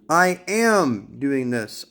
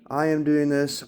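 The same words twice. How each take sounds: First: It is declared assertively, with strong emotion. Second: It is read out flatly, without emotion.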